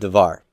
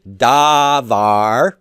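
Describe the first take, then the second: First: The first vowel is reduced and short. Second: Both vowels are long open A sounds. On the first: The word is joined to a following noun. "but devar, short and reductions" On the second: The word stands on its own. "normally, davar, long A's"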